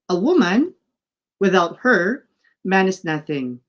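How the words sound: A long pause follows 'woman', another follows 'her'. "the second one uses a colon to create longer pause"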